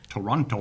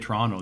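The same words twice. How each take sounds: First: The middle T is clearly pronounced. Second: The middle T is dropped, sounding like Trono. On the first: This is how people from elsewhere expect it said. The speaker calls it right. "You have to say Toronto" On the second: This is how locals say the city's name. The speaker calls it wrong. "If you're in the U S and you say Toronto, they look at you like, what the fuck is that"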